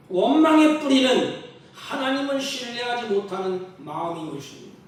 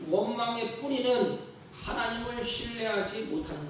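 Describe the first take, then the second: First: Louder preaching restatement. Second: Said in the usual way. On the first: Shown as a demonstration. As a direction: repeat the line louder, stress on 원망의.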